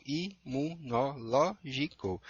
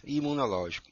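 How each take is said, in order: First: Imunológico stretched slowly, i-mu-no-ló-gi-co; slow syllable split. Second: Said in the usual way. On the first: Shown as a demonstration. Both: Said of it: "Vamos separar".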